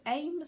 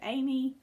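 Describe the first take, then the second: First: It is said as one syllable, like 'aim'. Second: It is said as two syllables, like 'Amy'. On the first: "Some people pronounce it AIM" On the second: "some people I think pronounce it Amy"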